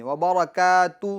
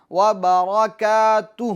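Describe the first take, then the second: First: وبرکاتہ said quickly, the final ha dropped; rushed وبرکاتہ with no final ha; wrong version. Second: وبرکاتہ ending in a clearly breathed ha; final ha made clear. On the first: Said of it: "تو نہیں". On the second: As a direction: let the final ha of وبرکاتہ be heard. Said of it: "ہا کو ظاہر کریں". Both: Shown as a demonstration.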